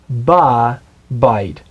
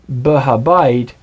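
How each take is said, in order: First: The h syllable is dropped and contracted. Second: The h syllable is pronounced in full. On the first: The speaker calls it right. "You contract it and you say ba bite" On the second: The speaker calls it wrong. "instead of saying ba ha bite"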